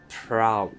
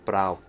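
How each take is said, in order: First: It starts with a plain P sound. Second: It starts with a B-like sound.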